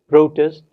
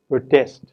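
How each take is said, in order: First: The stress is on the first syllable. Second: The stress is on the second syllable. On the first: It is used as a noun. "it is the first syllable which is stressed if the word is noun" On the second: It is used as a verb. "the second syllable is stressed if the word is a verb"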